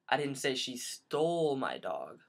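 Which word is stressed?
stole. The stress falls on the word stole.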